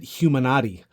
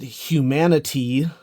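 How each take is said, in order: First: It ends like 'Illuminati', with an 'ah'. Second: It ends like 'humanity', with a short 'i'. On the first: "like Illuminati" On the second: "just like replacing the the Y of humanity with an I"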